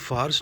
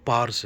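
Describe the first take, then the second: First: The word begins with an f sound. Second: The word begins with a p sound. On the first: This is the Arabic form of the name. The speaker calls it wrong. "वो actually फ़ार्स नहीं" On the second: This is the original form of the name. The speaker calls it right. "वो पार्स है, P A R S"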